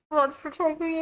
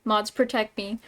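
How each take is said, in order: First: High-pitched plea for help; mock pleading. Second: Said in the usual way. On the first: Streamer begging mods for protection, high mock plea. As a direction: beg in a raised, put-on voice. Repeated plea, now overwrought.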